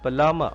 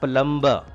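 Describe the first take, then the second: First: The B sound is silent. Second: The B sound is pronounced. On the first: The speaker calls it right. "B is silent here" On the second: The speaker calls it wrong. "It is not plumber"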